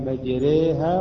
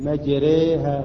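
Both takes have the same delivery.

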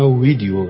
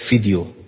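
First: The word begins with a V sound. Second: The word begins with an F sound. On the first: This is how the speaker would say it. "حالا من بودم میگفتم ویدیو" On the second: This is how Arabic speakers say it. "برام ویو میگن ف"

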